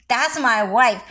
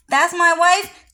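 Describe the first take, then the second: First: Said in the usual way. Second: "That's my wife" said high and loud with a rising end; excited boast. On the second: Acted. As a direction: proudly call it out, voice lifting on "wife". Repeated boast, rising take.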